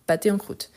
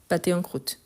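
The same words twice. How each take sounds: The two takes are said the same way.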